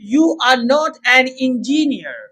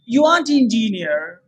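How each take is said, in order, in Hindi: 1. 'Are not' दो पूरे शब्दों की तरह बोला जाता है। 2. 'Are not' एक छोटे शब्द में संक्षिप्त हो जाता है।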